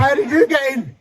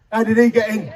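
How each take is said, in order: First: "you" jumps up in pitch in a mock retort; stress on YOU. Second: Said in the usual way. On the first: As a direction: throw the question back, punching "you". Throws the same question back.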